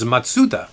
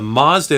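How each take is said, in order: First: It is pronounced the original Japanese way. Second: It is pronounced the American way. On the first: "but the real name is Matsuda" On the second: "It's called a Mazda in the United States"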